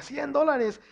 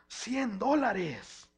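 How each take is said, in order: First: Loud gloat. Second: Drawn-out gloat. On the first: Child gloating to make his sister cry. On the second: Child gloating over a birthday check. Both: Retold or imitated.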